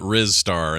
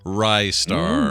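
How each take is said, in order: First: The first syllable has a short 'riz' vowel. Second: The first syllable has a long 'rise' vowel. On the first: The speaker calls it wrong. "I called it Riz Star in the day because I was an idiot" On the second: The speaker calls it right. "now I'm smarter and I know better"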